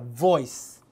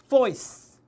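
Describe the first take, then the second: First: It starts with a voiced v sound. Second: It starts with a voiceless f sound. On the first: "V니까" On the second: "F 했으면"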